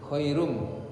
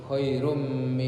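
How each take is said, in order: No difference in how they are said.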